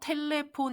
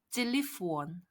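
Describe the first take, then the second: First: The first syllable is a plain 'te' sound. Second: The first syllable is a tense 'chi' sound. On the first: The speaker calls it wrong. "텔레폰 이렇게 하지 않고" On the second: The speaker calls it right. "약간 쌍지읒 발음으로 찔리폰"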